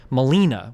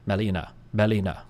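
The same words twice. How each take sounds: First: Melina with LI punched; English-style Melina, heavily stressed; hard English stress. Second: Melina in even syllables, lower and unstressed; level, Japanese-style Melina; Japanese pronunciation. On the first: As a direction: lean hard on the middle of Melina. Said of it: "very hard accents in English". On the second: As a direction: say Melina without punching any syllable. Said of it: "Whereas, like, in Japanese". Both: Shown as a demonstration.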